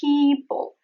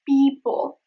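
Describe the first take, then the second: First: The first p has a strong puff of air. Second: The first p has no puff of air. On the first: The speaker calls it right. "There is the aspiration. ... It is adding air to it" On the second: The speaker calls it wrong. "It is not people, as a lot of non-native speakers say"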